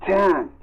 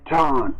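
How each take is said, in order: First: "Tan" said with the a of cat; "Tan" rhymes with can, flat a. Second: "Tan" said "tahn", open a as in baton; "Tan" with the broad ah of baton. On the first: Narrator spelling out the doctor's name: "Tan" like cat. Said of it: "like T A N". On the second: Narrator correcting the doctor's name: "Tan" as "tahn". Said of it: "Tan was pronounced like baton". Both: A narrator's reading.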